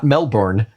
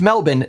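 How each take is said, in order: First: It is said a non-Australian way. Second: It is said the Australian way. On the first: The speaker calls it wrong. "not Melbourne" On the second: The speaker calls it right. "pronounced Melbourne"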